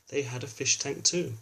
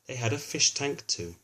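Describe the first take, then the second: No difference in how they are said.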